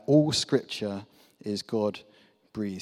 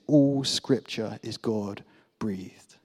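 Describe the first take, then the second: First: Slow, deliberate reading. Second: "All Scripture is God-breathed" drawn out slowly, each word weighted; slow emphatic reading. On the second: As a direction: lean on "All" and stretch the phrase. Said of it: "the same ruach that we can read". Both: Shown as a demonstration.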